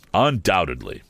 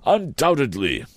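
First: Plain Wopsle echo. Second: High, fussy Mr Wopsle voice; pompous Wopsle. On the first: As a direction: drop back down for the repeat. Wopsle voiced, repeated. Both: A narrator's reading.

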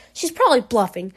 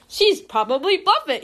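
First: Said in the usual way. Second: Stiff robotic monotone. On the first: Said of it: "He's like". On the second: Retold or imitated. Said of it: "He looks like a robot".

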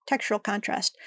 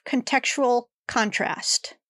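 First: "Textural contrast" said softly as a correction; fixing the slip with "Textural"; corrected word. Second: Says "contextual" instead of textural; "contextual contrast" as a reading slip; misread word. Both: Real, not acted.

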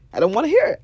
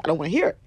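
First: Louder, pitched up on hear; louder insistence. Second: Said in the usual way. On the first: Shown as a demonstration. Refusing to hear bad news, louder and pitched up. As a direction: push it higher and louder.

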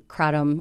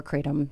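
First: Kratom with a short A, "KRAT-um"; pronunciation variant. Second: Kratom with a long AY, "KRAY-tum"; pronunciation variant. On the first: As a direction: say kratom with the vowel of "cat". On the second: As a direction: say kratom so it starts like "crate". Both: Shown as a demonstration. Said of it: "however you wanna pronounce it".

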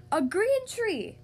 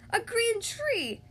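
First: High, loud, drawn-out exclamation; exclaiming. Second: High, drawn-out mock shout; crowd's shout. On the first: King reacts to the painted tree, loud exclamation. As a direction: exclaim it slowly in high astonishment. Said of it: "exclaimed the king". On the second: Crowd echoes the king, high-pitched shout. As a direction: call it out high and slow. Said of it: "shouted the crowd". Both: A narrator's reading.

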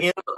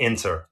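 First: Inter said as 'inner', no T; casual 'inner' for inter; dropped T. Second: Inter with a clear T; careful 'inter', T fully said; sounded T. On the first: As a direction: drop the T so inter becomes inner. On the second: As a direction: enunciate the T in inter. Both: Shown as a demonstration. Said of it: "would you say inner or inter".

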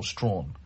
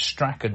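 First: Strawn as one syllable, rhyming with drawn; no k sound in Strawn, just a long aw; one-syllable pronunciation. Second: Strachan said in two syllables, STRACK-un; two-syllable pronunciation. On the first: Podcast host comparing two name pronunciations, Strawn in one syllable. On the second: Podcast host comparing two name pronunciations, Strachan as STRACK-un. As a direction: sound the middle of Strachan as a hard k. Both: Shown as a demonstration. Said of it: "whether it's Strachan or Strawn".

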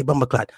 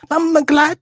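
First: Said in the usual way. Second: High, loud mock Jamaican squawk; Jamaican accent. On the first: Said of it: "say Bumbleclot". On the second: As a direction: belt it out in exaggerated patois. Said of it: "talking that Jamaican accent".

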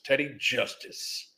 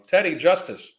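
First: Slow, drawn-out announcer name; lightly voiced old-timey announcer; old-time sheriff show voice. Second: Said in the usual way. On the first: Shown as a demonstration. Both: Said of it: "I don't know why I said that like that".

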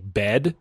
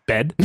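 First: "bed" with a stretched vowel; "bed" pulled long; long Canadian bed. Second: "bed" clipped short; "bed" with a short vowel. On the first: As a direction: draw out "bed" Canadian style. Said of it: "it sounds longer than just". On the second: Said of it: "longer than just, like, bed". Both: Shown as a demonstration.

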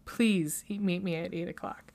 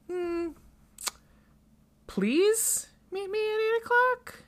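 First: Said in the usual way. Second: High, rising disbelief, much higher; mock-incredulous repeat; incredulous question. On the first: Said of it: "He goes". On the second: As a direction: echo his words back as a doubtful question. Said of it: "She goes".

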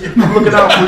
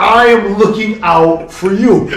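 First: Loud, high-pitched insistence; insistent reassurance. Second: Loud, slow, word-by-word "I am looking out for you"; high, deliberate, exasperated insistence; emphatic insistence. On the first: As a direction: press the point urgently at a running pace. Insisting to the drunk player. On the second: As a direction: spell it out slowly and forcefully. Repeats it more emphatically. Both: Retold or imitated.

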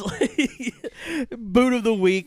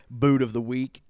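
First: Squeaky, loud, silly announcement; high goofy voice. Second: Said in the usual way. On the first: Shown as a demonstration. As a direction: belt it out high like a goofy jingle. Segment name, repeated goofy.

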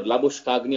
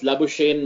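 First: Labuschagny said "la-boosh-KAG-nee", hard g sounded; alternative pronunciation. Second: Labuschagne said "la-boo-SHAYN", no hard g; pronunciation variant. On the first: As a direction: say Labuschagny with every consonant, ending "kag-nee". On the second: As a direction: say Labuschagne with a silent g, ending like "shane". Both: Shown as a demonstration. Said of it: "however people pronounce his name".

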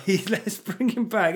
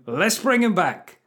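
First: Slow, louder sarcastic repeat; mocking. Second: Slow, louder sarcastic line; mocking. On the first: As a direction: lay the sarcasm on. Repeated mock line. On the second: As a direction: sell the sarcastic idea. First take.

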